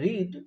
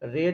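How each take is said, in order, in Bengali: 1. শব্দটিতে দীর্ঘ ee স্বর আছে। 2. শব্দটিতে হ্রস্ব e স্বর আছে।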